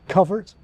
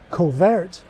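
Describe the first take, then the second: First: The second syllable has a weak, reduced vowel. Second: The second syllable has a short 'e' vowel. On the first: This is the older pronunciation. "The older pronunciation had a weak second syllable" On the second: This is the modern pronunciation used by most Scots. "or for most Scots, the dress vowel"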